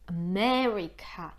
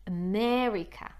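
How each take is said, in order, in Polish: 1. Akcent pada na drugą sylabę. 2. Akcent pada na drugą sylabę.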